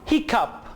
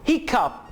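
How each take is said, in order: Both takes have the same delivery.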